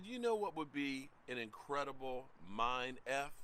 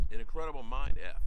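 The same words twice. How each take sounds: First: Said in the usual way. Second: Loud emphatic repeat. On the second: Shown as a demonstration. To his chat, repeating the idea much louder.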